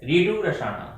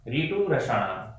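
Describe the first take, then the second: First: Said in the usual way. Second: ऋतु रसायन said slowly and softer, each syllable spelled out clearly; slow, careful pronunciation. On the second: Shown as a demonstration. Teacher drilling the class on the sutra, slow and clear. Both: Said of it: "इस प्रकार आपको उच्चारण याद करना है".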